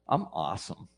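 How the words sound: It sounds quietly content, with simple self-love.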